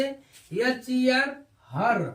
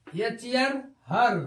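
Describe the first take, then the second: First: "हर" said with a short ur sound, spelled slowly first; drawn-out teaching spelling of "हर"; slow spelled demo. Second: Said in the usual way. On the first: Shown as a demonstration. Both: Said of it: "उच्चारण अर का होता है".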